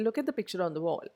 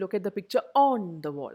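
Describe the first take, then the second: First: The word 'on' is barely heard, very weak. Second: The word 'on' is said fully and clearly. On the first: The speaker calls it right. "I say ... ആ ഓൺ അവിടെ ഒട്ടും കേൾക്കുന്നില്ല" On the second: The speaker calls it wrong. "I don't say"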